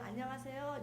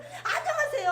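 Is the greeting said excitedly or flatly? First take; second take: flatly; excitedly. First: It is said flatly and quietly. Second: It is said excitedly and warmly.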